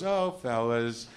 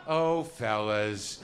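First: Slow, mock-shocked "oh, fellas"; drawn-out mild surprise from a stranger's voice; a lightly voiced shocked co-host; baffled woman again. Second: Slow, mock-shocked "oh, fellas"; a lightly voiced baffled radio woman. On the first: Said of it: "a voice I don't know goes". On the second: Shown as a demonstration. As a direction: drag it out like the shocked co-host. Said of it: "if I were to do an impression of that".

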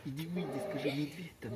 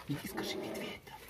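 First: Said in the usual way. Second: Unvoiced whisper; whispering while hiding. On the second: Real, not acted. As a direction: whisper the instruction so he can't hear. Same words, whispered.

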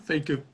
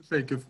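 Both takes have the same delivery.

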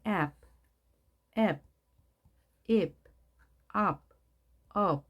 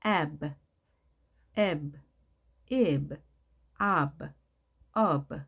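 First: "ebb, ib, ob" as single closed syllables, B tucked in as batchim; short "ebb, ib, ob", each one syllable ending on B; B as Korean final consonant. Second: "ebb, ib, ob" with a separate little "buh" after each vowel; vowel then released B. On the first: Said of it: "우리말은 종성을 쓸 수가 있죠. 따라서 이 형태를". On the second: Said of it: "에 하고 그다음에 브 해주면 되겠습니다". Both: Shown as a demonstration.

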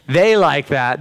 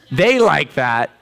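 First: Said in the usual way. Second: Each word drawn out slowly; slow emphasis. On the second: Shown as a demonstration. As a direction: stretch it out for weight.

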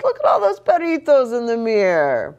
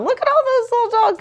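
First: Said in the usual way. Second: Very high, fast excited voice. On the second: Acted. Excited reading aside.

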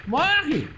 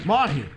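First: High, loud shout falling at the end; escalated combat yell. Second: Loud, short command with falling end; combat cry. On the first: Gamer to the attacking bear, yelling high. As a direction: yell it higher, with more force. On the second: Gamer to the attacking bear, calling out loudly. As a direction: call it out forcefully at usual pitch. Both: Real, not acted.

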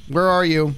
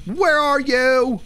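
First: Said in the usual way. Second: High, slow ghost-hunting holler; high drawn-out call. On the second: Pretend. Player seeking the ghost by spirit box, high drawn-out call. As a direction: draw each word out up high.

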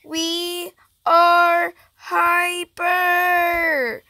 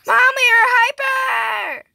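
First: Very slow, each word stretched out; slow-motion declaration; drawn-out announcement. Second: High, quick, hollered announcement; high-pitched excited yell; excited shout to Mom. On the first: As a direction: hold every word long and even. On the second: Calling out the same news louder. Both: Pretend.

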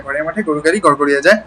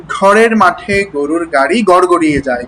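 First: ঘরের মাঠে গরুর গাড়ি rattled off fast; fast tongue twister. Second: Said in the usual way. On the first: Shown as a demonstration. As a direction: rush ঘরের মাঠে গরুর গাড়ি as quickly as you can. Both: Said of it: "যত দ্রুত বলতে পারেন".

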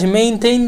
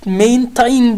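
First: Maintain said quickly as one English word; maintain, run together the English way; correct pronunciation. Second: Main tayin, read slowly as two words, letter by letter; spelled-out reading. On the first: Teacher gives the class the real pronunciation. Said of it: "maintain diye okunur". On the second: Teacher reads the spelling to the class slowly. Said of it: "main tayin diye yazılır bu". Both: Shown as a demonstration.

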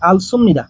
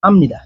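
First: আলসুমনিদা with the l and the full sum sounded; wrong form. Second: আমনিদা contracted to am-ni-da; correct form. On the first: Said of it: "লিখলে হবে না". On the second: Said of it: "লিখতে হবে". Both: Shown as a demonstration.

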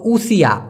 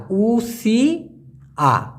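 First: Said in the usual way. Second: "উসিয়া" stretched out very slowly, u-si-ya, falling at the end; careful pronunciation. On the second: Shown as a demonstration. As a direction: draw out "উসিয়া" syllable by syllable, slowly, to show the sound. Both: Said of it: "উচ্চারণটা হবে উসিয়া".

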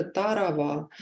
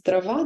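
First: «тарава» with an extra а between т and р; «тарава» childish version; child's slip. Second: Said in the usual way. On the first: Shown as a demonstration. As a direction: say «тарава» with an added vowel. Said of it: "дитина скаже". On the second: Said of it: "замість".

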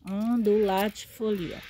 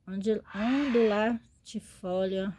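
First: "Ondulatifolia" said louder, firm and whole; proud, clear plant name; confident name. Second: Slow, halting "ondulatifolia" broken into syllables; slow careful try at a hard plant name; stumbling over the name. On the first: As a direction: nail "Ondulatifolia" in one go with a falling end. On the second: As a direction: feel your way through "ondil-, ondulatifolia" slowly. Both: Shown as a demonstration. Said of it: "Isso, ondulatifolia".

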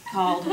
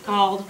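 Both takes have the same delivery.

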